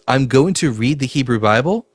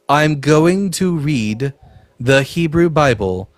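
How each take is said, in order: First: It is said at a normal speaking pace. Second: It is said very slowly and deliberately.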